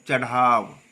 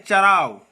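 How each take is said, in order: First: चढ़ाव with breathy retroflex dh, lower; correct pronunciation. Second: चराव with plain r, drawn out; wrong pronunciation. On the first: Teacher correcting the slip, correct pronunciation. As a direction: put an aspirated dh in चढ़ाव. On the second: Teacher giving the faulty example, wrong pronunciation. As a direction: say चराव slowly with an r. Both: Shown as a demonstration. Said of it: "चराव नहीं".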